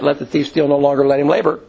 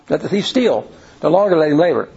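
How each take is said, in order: First: The pause comes right after "longer". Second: The pause comes right after "steal".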